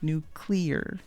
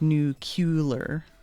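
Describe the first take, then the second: First: No extra vowel is added before the L. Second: An extra 'u' vowel is added before the L. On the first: The speaker calls it right. "it's like nu it's nuclear" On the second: The speaker calls it wrong. "They say it like there's an extra U in there"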